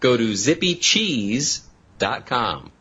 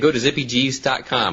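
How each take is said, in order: First: The phrase is said at a slower pace. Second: The phrase is said very quickly. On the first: The speaker calls it right. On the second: The speaker calls it wrong.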